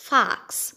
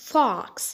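First: "fox" with an open ah; American FOX. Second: "fox" with a rounded O; British FOX. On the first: Teacher showing American "fox", open-vowel pronunciation. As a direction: say "fox" like "fahks". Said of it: "في الأمريكان أكسنت بتتقال". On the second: Teacher showing British "fox", rounded-O pronunciation. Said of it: "هنقولها في البريتش أكسنت". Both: Shown as a demonstration.

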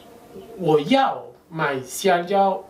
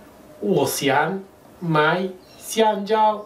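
First: 我要买香蕉 spoken very slowly, each syllable apart; teacher slowing down for learners; slow demo read; slow model phrase. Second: 我想买香蕉 spoken very slowly, each syllable apart; teacher slowing down for learners; slow demo read; slow model phrase. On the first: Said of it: "Pero si yo digo". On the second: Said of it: "yo puedo decir". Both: Shown as a demonstration.

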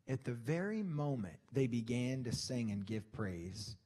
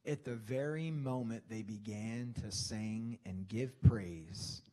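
Both takes have the same delivery.

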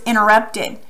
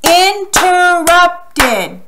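First: Said in the usual way. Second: "Interrupted" very slow and higher, in four beats; slow, by syllables. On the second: Shown as a demonstration. Teacher clapping syllables with pupils, "Interrupted" slowly chopped apart. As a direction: stretch each syllable of "Interrupted" for a clap. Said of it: "let's say it slowly".

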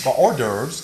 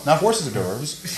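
First: "hors d'oeuvres" said as "or-derves", no h; correct pronunciation. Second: Hors d'oeuvres said as "horses"; wrong pronunciation. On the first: Host correcting the butler, now saying it right. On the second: Host correcting the butler's word, saying it wrong on purpose. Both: Shown as a demonstration.

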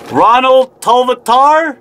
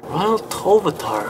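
First: Tolvatar sounded out slowly as tol-va-TAR, falling at the end; reading a patron's name aloud for the first time, slow and careful. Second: Ronald Tolvatar repeated much softer, tol-va-tar trying it out; mumbling the name again to check it; softer retry of the name. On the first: A patron shoutout, saying Tolvatar slowly syllable by syllable. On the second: A patron shoutout, quietly retrying Tolvatar to check it. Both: Shown as a demonstration. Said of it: "I hope I'm pronouncing that right".

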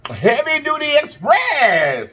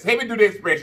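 First: High, slow, drawn-out announcer call. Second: Said in the usual way. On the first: Pretend. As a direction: boom out the name like a hype announcer. Announcing channel name with flourish.

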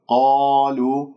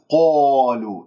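First: قالوا with a full, open "qaa", lips unrounded; heavy open qaf. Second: قالوا turned into "qoolu" with rounded lips. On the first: Teacher models the natural madd: open heavy qaa in قالوا. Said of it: "مفتوحة القاف، بعدها ألف مفخمة". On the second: Teacher shows what not to say: lip-rounded "qo" in قالوا. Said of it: "لا تكور الشفاه". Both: Shown as a demonstration.

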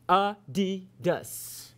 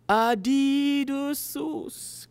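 First: Slow, syllable-by-syllable Adidas; teaching pronunciation. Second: Put-on high, drawn-out "Adidas" in a learner's accent; foreign learner's accent. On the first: Acted. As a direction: sound out "Adidas" slowly as a-DI-das. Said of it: "Go ahead, Cal, say it". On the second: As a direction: repeat it slowly with a foreign accent. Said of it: "Cal said".

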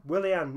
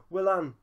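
First: Willian with three syllables, WIL-ee-an; corrected name. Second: Willan said as two syllables, WIL-an; mispronounced name. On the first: Correcting himself on the winger's name, Willian. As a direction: correct it to Willian, lengthened end. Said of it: "Will-, Willan?". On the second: Reading the winger's name, saying Willan. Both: Real, not acted.

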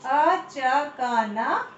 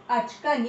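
First: अचकन drawn out as a-cha-ka-naa; syllable by syllable. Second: Said in the usual way. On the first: Shown as a demonstration. Teacher sounding out the right answer अचकन. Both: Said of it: "Very good".

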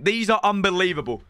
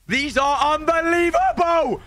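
First: Said in the usual way. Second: Big hype shout over a great pull; excited shout. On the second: Real, not acted. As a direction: yell it at the pack in disbelief. Repeated, second take shouted.

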